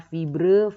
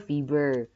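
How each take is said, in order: First: FIBRE ending in a loud -bre as spelt; British spelling pronounced. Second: Said in the usual way. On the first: Shown as a demonstration. Teacher contrasts British spelling, fibre sounded as -bre. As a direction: say FIBRE with R before the final vowel. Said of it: "metre kalau British". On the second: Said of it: "kalau American dia meter biasa".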